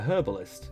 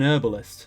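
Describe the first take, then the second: First: The word begins with a clear H sound. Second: The word begins without any H sound. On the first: "you don't pronounce the H where we do" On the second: "you don't pronounce the H"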